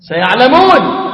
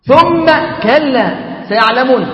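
First: The word سيعلمون said louder, falling at the end; raised verse recitation; warning recitation. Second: ثم كلا سيعلمون drawn out slowly, stressing ثم; deliberate solemn recitation; slow weighty repeat. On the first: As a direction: sound the threat in سيعلمون. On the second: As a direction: let ثم كلا سيعلمون land word by word. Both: Acted.

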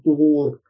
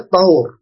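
First: طهور said tuhur, with u after the t; طهور with the first vowel u, as the word not to say; wrong way. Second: طهور said tahur, with a after the t; correct way. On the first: Teacher showing students the wrong form طهور, said tuhur. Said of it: "لا تقل طهور". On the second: Teacher giving students the right form طهور, with a after the ط. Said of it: "فتح الطاء". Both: Shown as a demonstration.

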